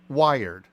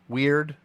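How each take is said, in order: First: The word is said like 'wired'. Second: The word is said like 'weird'. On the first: The speaker calls it wrong. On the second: The speaker calls it right.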